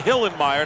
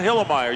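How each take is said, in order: First: The name is said carefully, with every sound. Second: The name is said lazily, with a sound dropped. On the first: The speaker calls it right. "You got to say Hillenmeyer" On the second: The speaker calls it wrong. "You can't be lazy in the pronunciation"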